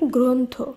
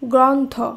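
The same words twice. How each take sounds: First: The first vowel is an o sound. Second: The first vowel is not an o sound. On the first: The speaker calls it right. "শব্দটি শুদ্ধ উচ্চারণ হবে" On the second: The speaker calls it wrong. "এইভাবে উচ্চারণ করা যাবে না"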